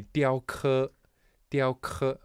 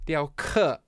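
First: "diao ke" said with the wrong tone; "diao ke" in a tone he then corrects; "diao ke" in an uncorrected first tone; first try. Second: "diao ke" said again, higher and louder, fixing the tone; louder corrected "diao ke" after an apology; corrected pronunciation. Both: Shown as a demonstration. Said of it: "oh, so I'm sorry".

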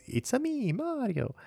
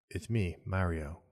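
First: High-pitched, sing-song Italian cartoon plumber; Mario. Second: Put-on plain, unaccented and slow, no character at all; Chris Pratt. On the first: Host showing the iconic game voice, high Mario impression. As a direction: squeal it in a high, accented cartoon voice. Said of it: "Mario has that distinctive voice". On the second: Host mocking the movie trailer's casting, deadpan ordinary voice. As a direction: deliver the catchphrase in an underwhelming everyday voice. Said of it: "him doing his own voice".

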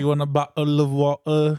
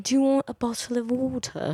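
First: Hammed-up English accent. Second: High-pitched English accent; Harry Potter English. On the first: Repeating their one English line, mock English accent. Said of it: "in an English accent". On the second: Correcting the co-host's attempt, high Harry Potter English accent. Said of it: "that's the Harry Potter English". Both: Shown as a demonstration.

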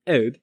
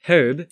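First: HERB said as "erb", louder; herb without its H, emphatic. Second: HERB with a breathy H at the start, louder; herb, H clearly sounded, emphatic. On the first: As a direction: say "herb" with the H silent. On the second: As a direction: say "herb" with the H pronounced. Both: Shown as a demonstration. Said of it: "should be pronounced with an H".

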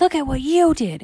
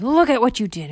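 First: Higher, louder mimicking comeback; loud, high-pitched sibling retort; retorting little girl. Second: Lightly voiced boy, higher and louder; high, loud accusation; accusing little boy. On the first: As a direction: throw it back in a high girl's voice. Candy throws blame back. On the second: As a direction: blame your sister in a loud, high kid voice. Bar scolds sister in story.

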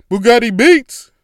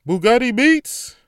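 First: Much louder, higher beat-tag yell; producer tag shout. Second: Higher, louder hype drop; producer tag. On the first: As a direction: shout it like a rap intro drop. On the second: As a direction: announce it like a beat tag. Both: Shown as a demonstration. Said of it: "say Bugatti Beats like that".

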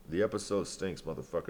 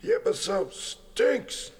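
First: Said in the usual way. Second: High, slow, put-on squeaky voice; mocking falsetto verdict; silly high voice. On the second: Shown as a demonstration. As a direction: stretch it up high and slow like a cartoon.

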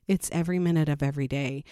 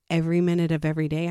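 First: Said in the usual way. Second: Fast emphatic every minute of every day; urgent insistence, rushed. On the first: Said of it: "I'm not kidding". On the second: Shown as a demonstration. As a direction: stress every and every day, rattled off quickly. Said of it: "And when I say".

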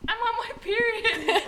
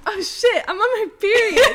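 First: Higher, slow, laughing put-on voice; mocking a friend's panicked announcement, giggling; imitating a friend's blurt. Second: Higher, louder mock panic, laughing at the end; hammed-up alarm breaking into a laugh; retold panicked yell. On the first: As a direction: drag it out like a silly confession. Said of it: "And then Ali just". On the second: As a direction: yell it like the news just hit you, half laughing. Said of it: "I yelled".

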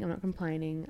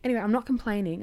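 First: Said in the usual way. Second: Louder and higher, with "not" punched; "not" stressed in a loud, bright "I'm not complaining"; emphatic denial. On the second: Shown as a demonstration.

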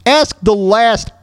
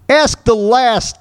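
The two takes are said the same way.

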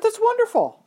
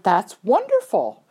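First: High-pitched retold praise; delighted congratulations. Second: Slow retold praise, stretching "wonderful"; drawn-out congratulations. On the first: Trainer congratulates rider on first show, high and delighted. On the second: Trainer congratulates rider on her ribbon, slow and admiring. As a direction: linger on the praise, swelling on "wonderful".

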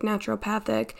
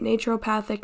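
First: "naturopathic" with a short "na" as in "natural"; settling on "naturopathic" with a short a; trying another pronunciation. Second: "naturopathic" with a long "nay" as in "nature"; testing "naturopathic" with a nay sound; trying a pronunciation. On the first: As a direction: say "naturopathic" starting NA-tcher-oh-PATH-ic. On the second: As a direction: say "naturopathic" starting NAY-tcher-oh-PATH-ic. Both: Shown as a demonstration. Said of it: "I think that's how you pronounce it".

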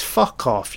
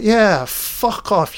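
First: Plain retold fuck off; flat mock brush-off; mock dismissal. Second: Yeah drawn out high and slow, fuck off; hammed-up high jeer; high mock taunt. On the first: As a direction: toss off the words in a normal voice. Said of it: "I'd be like". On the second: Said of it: "Freddy's like".

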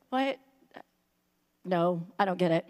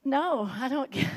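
First: Low, lost and confused; clueless disciple. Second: Said in the usual way. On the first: Retold or imitated. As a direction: play dumb, utterly baffled. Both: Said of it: "I'm like".

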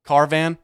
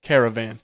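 First: CARVAN in two beats, car-van; shortened caravan. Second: CARAVAN in three beats, care-uh-van; full caravan. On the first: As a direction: drop the middle syllable: "Carvan". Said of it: "You don't just eliminate". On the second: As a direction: say "caravan" with every syllable. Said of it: "eliminate the fucking word". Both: Shown as a demonstration.

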